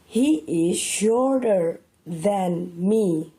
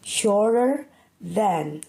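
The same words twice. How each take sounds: First: He is shorter than me said very slowly; slow model sentence. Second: Shorter than said slowly and carefully; slow repeat. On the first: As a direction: spell it out slowly for learners. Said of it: "For example". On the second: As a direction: repeat the key phrase slowly. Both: Shown as a demonstration.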